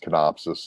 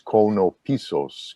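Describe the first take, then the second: First: The name is said in a shortened English-style form. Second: The name is said in its fuller Greek form. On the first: "the anglicized version is canopsis, like synopsis" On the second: "the traditional way is konopisos"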